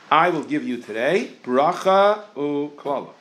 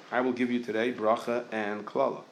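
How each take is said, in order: First: Slow, chanted reading of "bracha u'klala"; reciting the verse. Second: Said in the usual way. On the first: Shown as a demonstration. A rabbi quotes the verse to his class, slow and chanted. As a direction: intone it like a verse being read aloud. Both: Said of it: "The pasuk says".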